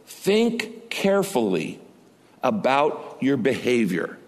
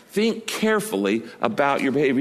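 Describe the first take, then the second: First: Slow, weighty, each word laid down; slow solemn quote. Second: Said in the usual way. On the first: Acted. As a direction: read it slowly like scripture. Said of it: "God says this".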